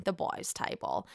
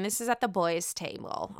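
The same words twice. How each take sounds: First: Breathy whispered repeat, much softer; whispered aside. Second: Said in the usual way. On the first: Shown as a demonstration. Whispering to viewers about the boys' table. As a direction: drop to a secret whisper.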